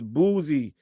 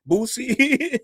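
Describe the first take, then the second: First: The middle consonant is a full buzzing z. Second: The middle consonant is a hissing s. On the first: Someone else insists on this pronunciation. "it's [name], not [name]" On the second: This is how people from the speaker's area say it. "I do pronounce my C's, my Z's with a with a C"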